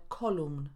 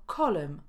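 First: Kolumn with full Polish u and sounded n; wrong full u. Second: Kolem with weak second vowel, silent n; schwa in column. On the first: Teacher showing the mistake, kolumn with full u and n. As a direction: say kolumn as spelt, every letter. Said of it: "a nie". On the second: Teacher giving the English for kolumna, kolem with schwa. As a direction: say kolem, reducing the second syllable. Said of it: "Szła pojawia się". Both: Shown as a demonstration.

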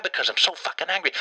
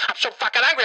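First: Restrained anger. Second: Anger breaking out, pitch jumping up; higher, heated comic rage; angry outburst. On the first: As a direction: say it tight, keeping the anger down. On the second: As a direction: let the held-in fury burst out. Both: Acted.

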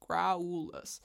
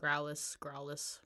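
First: Growlus stretched as "grow-OOO-lus"; pronounced as spelt. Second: Growlus in two syllables, like "growl-us"; alternative pronunciation. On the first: Defending the spelling to co-host, Growlus with drawn-out U. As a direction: sound out the U in Growlus, long and separate. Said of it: "that is its exact spelling". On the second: Comparing audiobook versions for co-host, Growlus as "growl-us". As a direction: say Growlus short, with no separate U. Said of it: "I've heard both in the audiobook". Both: Shown as a demonstration.

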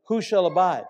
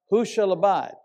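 First: "Who shall abide?" with "shall" leaned on and falling; stress on shall. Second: "Who shall abide?" with "who" leaned on and falling; stress on who. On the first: Preacher showing the question in the psalm, stress on "shall". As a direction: tip the weight onto "shall". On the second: Preacher repeating the question, now stress on "who". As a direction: put the weight on "who", the rest light. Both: Shown as a demonstration. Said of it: "That's a question mark".

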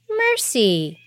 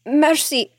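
First: Cool echo. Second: High pleading mercy, falling; begging. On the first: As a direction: echo mercy back coldly. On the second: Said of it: "he begged". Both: A narrator's reading.

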